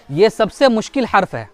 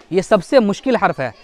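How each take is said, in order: Both takes have the same delivery.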